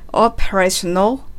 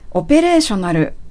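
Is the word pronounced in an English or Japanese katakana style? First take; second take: English; Japanese. First: It is said with English stress and a lengthened first O. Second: It is said with flat Japanese katakana syllables. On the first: The speaker calls it right. "最後のなるのところをなるではなくて" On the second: The speaker calls it wrong. "カタカナ読みすると"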